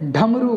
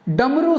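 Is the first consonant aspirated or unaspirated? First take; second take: aspirated; unaspirated. First: The first consonant is aspirated. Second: The first consonant is unaspirated. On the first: The speaker calls it wrong. "ढमरू गलत है" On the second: The speaker calls it right. "डमरू सही है"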